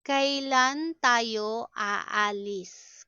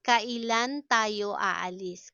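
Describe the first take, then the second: First: Deliberate, word by word; slow teaching model. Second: Said in the usual way. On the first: Shown as a demonstration. Teacher models a question about leaving, slowly. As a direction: stretch each syllable for learners.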